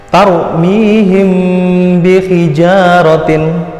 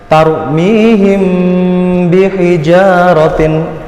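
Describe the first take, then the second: No difference in how they are said.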